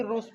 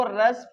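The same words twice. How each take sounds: First: "रूस" with an oo vowel; oo reading. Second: "रस" with a short uh vowel; short U reading. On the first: Teacher quizzing pupils on two readings, "रूस" with oo. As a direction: round the U to oo in "रूस". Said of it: "रस पढ़ेंगे कि रूस पढ़ेंगे". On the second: Teacher quizzing pupils on two readings, "रस" with short uh. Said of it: "इसको रस पढ़ेंगे कि रूस". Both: Shown as a demonstration.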